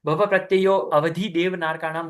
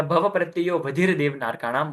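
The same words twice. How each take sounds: First: "भव प्रत्ययो अवधि देव नारकाणाम" with the avagraha voiced as a full अ before वधि; inserting the silent अ: प्रत्ययो अवधि; pronounce the a. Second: "भव प्रत्ययो वधिर देव नारकाणाम" with no अ, प्रत्ययो running straight into वधिर; skip the a. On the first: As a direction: say अवधि with an audible short a after प्रत्ययो. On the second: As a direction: avagraha left silent: प्रत्ययोवधिर in one flow. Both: Shown as a demonstration. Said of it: "इसको अ बोले कि नहीं बोले?".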